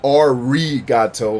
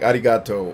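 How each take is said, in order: First: The r is a plain English r sound. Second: The r is a quick d-like flap. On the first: The speaker calls it wrong. "not arigato like an Anglo-Saxon would say" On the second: The speaker calls it right. "It's almost like a D sound"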